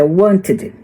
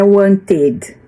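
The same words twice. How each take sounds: First: "wanted" said as WANT-id, ending light; WANT-id, second syllable reduced; correct pronunciation. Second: "wanted" wrongly said as wan-TED; wan-TED, with the ending sounded out as spelt; mispronounced ending. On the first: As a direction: say "wanted" with stress on WANT and a short "id". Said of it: "é wanted". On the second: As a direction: put a full, heavy "ted" on the end of "wanted". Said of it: "Não é wanted". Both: Shown as a demonstration.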